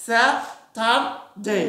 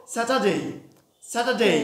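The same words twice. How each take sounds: First: স্যাটারডে slow, American accent, r sounded; teacher showing the American স্যাটারডে with a rolled-in r, very slowly; American pronunciation. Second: স্যাটারডে in a British accent, no r; teacher contrasting the British স্যাটারডে, r silent; British pronunciation. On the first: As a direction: stretch out স্যাটারডে the American way with a clear r. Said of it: "আমেরিকানরা কি বলবে?". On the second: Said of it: "ব্রিটিশরা কি বলবো?". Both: Shown as a demonstration.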